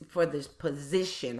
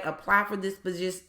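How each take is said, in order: First: POSITION said in full, lower and softer; quiet, low self-correction finishing every syllable of "position"; corrected after stumble. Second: POSI- cut off mid-word in a real stumble; tongue-tied, abandoning "posi-" before its last syllable; tripping over word. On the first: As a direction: redo "position" completely, dropping pitch and volume. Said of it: "I never can say that word". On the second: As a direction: stumble on "position" and break off at "posi-". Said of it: "when I'm talking fast". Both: Real, not acted.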